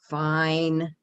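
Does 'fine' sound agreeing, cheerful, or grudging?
grudging. It is said in a grudging, reluctant tone. The speaker accepts but dislikes it. "Okay, but I don't like it"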